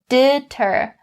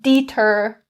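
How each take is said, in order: First: The vowel is a short E sound. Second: The vowel is a long E sound. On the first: The speaker calls it right. "concentrate on is upon the short E. We say deter" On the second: The speaker calls it wrong. "Don't change it to the long E. Don't say deter"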